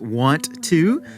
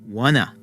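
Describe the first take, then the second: First: Both words are said fully and separately. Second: The words blend into one reduced word. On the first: "When we say the words want to" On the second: "we're often going to pronounce it as wanna"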